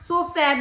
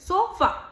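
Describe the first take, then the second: First: The final vowel sounds like the vowel in cat. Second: The final vowel is a short, weak neutral sound. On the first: The speaker calls it wrong. "कैट की तरह सोफा भी तो कह सकते थे" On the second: The speaker calls it right. "अ को इतना वीक vowel sound दे देते हैं"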